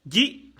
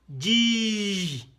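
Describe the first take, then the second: First: "Ji" with a brief i; quick, short "Ji"; short vowel. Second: "Ji" held out long; sustained, drawn-out "Ji"; long vowel. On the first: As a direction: keep "Ji" short. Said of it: "les voyelles brèves". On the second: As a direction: stretch the i of "Ji". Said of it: "C'est tiré". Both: Shown as a demonstration.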